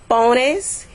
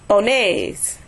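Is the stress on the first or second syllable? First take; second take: first; second. First: The stress is on the first syllable. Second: The stress is on the second syllable. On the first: One person is told to put something. "the stress falls on the next to the last syllable, which would be po" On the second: Several people are told to put something. "the stress is going to be where the accent is"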